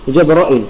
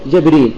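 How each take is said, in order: First: Opening a, hamza with short i, no long ī. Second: Opening a, long ī after r, no hamza. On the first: "بفتح الجيم والراء وإثبات الهمزة المكسورة وحذف الياء" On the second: "فتح الجيم وكسر الراء وحذف الهمزة وإثبات الياء"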